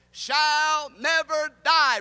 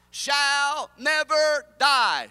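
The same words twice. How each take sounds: First: Drawn out, loud, high shall never die, even slower; slow chant for the crowd to echo; slow emphatic refrain again. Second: Drawn out, loud, high shall never die; slow emphatic refrain. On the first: Preacher repeating line with congregation, slow loud refrain. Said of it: "One more time". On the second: Preacher leading congregation, slow loud refrain. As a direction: lead the crowd, slow and loud. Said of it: "Say it with me". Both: Shown as a demonstration.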